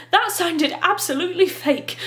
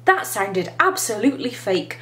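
First: Put-on higher-pitched girl character voice; Violet. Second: A lightly voiced boy's thought, in an everyday pitch; Klaus. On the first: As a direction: lift the pitch to play the sister. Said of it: "said Violet". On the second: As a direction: read it as his private, understated judgement. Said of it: "thought Klaus".

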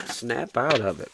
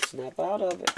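First: Slower, every word spelled out; slow firm repeat. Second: Higher, sharp command, quieter; snapping them out of it. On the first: Reader repeating the order to a lovesick listener, slow and firm. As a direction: lay it down slowly and firmly. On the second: Reader snapping a listener out of heartbreak, pitched up. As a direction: tell them to snap out of it, pitched up. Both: Shown as a demonstration.

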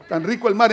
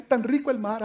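First: Said in the usual way. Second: Soft, laughing, savouring the words tan rico el mar; dreamy mock delight. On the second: Preacher mocking disciples admiring the sea, dreamy and soft. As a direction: sigh out tan rico el mar like a lazy daydreamer.

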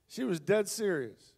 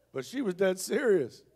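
First: Slower, leaning hard on dead; slow down and hit dead; dead drawn out and weighted; stress on dead. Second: Said in the usual way. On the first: Shown as a demonstration.

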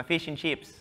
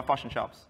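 First: Australian accent, "chips" drawn toward "cheeps"; "fish and chips" with tight Australian ee vowels; Australian twang. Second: New Zealand-style accent, "fish" as "fush"; "fish and chops" in accent, short i flattened to uh; corrected accent vowels. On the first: Sticking to his own food, slipping into Australian twang. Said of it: "There was a bit of an Australian twang going on there". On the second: Correcting his twang, New Zealand-style accent vowels. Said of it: "I should say". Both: Shown as a demonstration.

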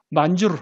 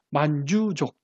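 First: 만주르 ending in an audible 르; the full form 만주르, final 르 kept; R pronounced. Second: 만주족 with no 르 after 만주; R dropped. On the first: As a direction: say 만주르 in full, R syllable included. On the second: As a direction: say 만주족 as the R-less form. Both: Shown as a demonstration. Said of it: "그래서 르가 사라집니다".

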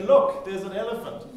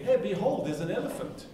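First: Excited call. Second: Mock archaic call. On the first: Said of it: "you say". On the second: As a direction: make "behold" sound grand and odd. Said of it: "Ria's not gonna get". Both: Shown as a demonstration.

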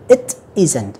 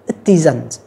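First: "it isn't" as two separate words; careful, separated "it isn't"; unlinked reading. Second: "it isn't" run together as i-TIZN'T; "it isn't" said as one joined word; linked reading. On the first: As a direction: keep "it" apart from "isn't". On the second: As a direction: link the T of "it" onto "isn't". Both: Shown as a demonstration. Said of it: "chúng ta nối qua".

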